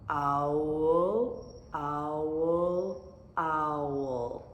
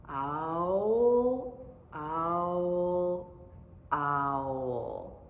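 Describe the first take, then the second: Both takes have the same delivery.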